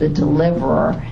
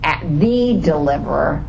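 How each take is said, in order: First: The stress falls on the word deliverer. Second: The stress falls on the word the.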